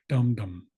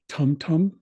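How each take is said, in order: First: The words begin with a softened D sound. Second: The words begin with a crisp T sound. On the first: "soften those T's to make them sound more like D's" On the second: "where the T's sound like T's"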